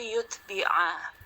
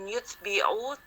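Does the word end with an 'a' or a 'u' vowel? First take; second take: a; u. First: The word ends with an 'a' vowel. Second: The word ends with a 'u' vowel. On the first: The speaker calls it right. "Nasab ya, ... tapi yutbi'a" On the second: The speaker calls it wrong. "bukan yutbi'u"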